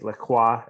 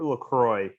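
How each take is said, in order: First: It is said with a French-style pronunciation. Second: It is said with a plain English pronunciation.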